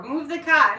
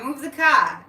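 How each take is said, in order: First: Loud Boston "move the cah", no R; mock Boston shout; Boston accent. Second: Loud Boston "Move the cah", R dropped; punchy Boston accent, no R. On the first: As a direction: drop the R in "car": "cah". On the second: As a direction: say "car" as "cah", Boston style. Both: Shown as a demonstration. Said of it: "there's no R".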